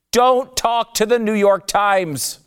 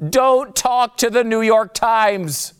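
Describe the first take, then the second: First: Slow, much higher and louder, leaning on "Don't"; deliberately spaced mock-stern command; emphatic warning. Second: Slow, much higher and louder, punching "don't"; drawn-out mock-stern command; emphatic warning. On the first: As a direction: drill the rule home. Emphatic rule of life. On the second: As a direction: hammer the rule again like a coach. Repeated rule number one.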